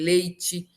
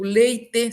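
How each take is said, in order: First: "leite" dito leitchi; e final como i. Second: O primeiro "leite" como lei-tê; e final mantido. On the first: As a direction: termine "leite" com som de tchi. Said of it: "se transforma em". ("leite" com t chiado e i final) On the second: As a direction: diga "leite" com t seco e e final. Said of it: "se transforma em leite". ("leite" silabado, terminando em tê) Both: Shown as a demonstration.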